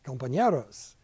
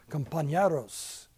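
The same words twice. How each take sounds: First: "Compañeros" repeated in Spanish, kom-pa-NYEH-ros. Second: "compañeros" in Spanish, slow, kom-pa-NYEH-ros; Spanish word. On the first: Pastor repeating word for class, "Compañeros" in Spanish. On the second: Pastor teaching class a word, "compañeros" in Spanish. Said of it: "See? Compañeros". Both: Shown as a demonstration.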